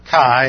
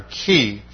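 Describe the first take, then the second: First: "chi" said with a long I, like "kai"; old pronunciation. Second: "chi" said with a long E, like "kee"; modern pronunciation. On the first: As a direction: say "chi" as "kai", rhymes with "sky". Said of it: "But the old way was". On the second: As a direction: say "chi" as "kee", rhymes with "key". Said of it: "like, a long E". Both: Shown as a demonstration.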